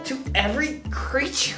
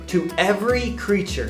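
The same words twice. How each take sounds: First: It is said with a sassy attitude. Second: It is said plainly, without attitude.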